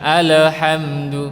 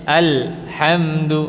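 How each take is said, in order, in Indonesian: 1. Bunyi l dipantulkan dengan gema. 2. Bunyi l dipotong mendadak. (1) "Tidak dipantulkan, bukan alhamdu" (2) "Atau putus"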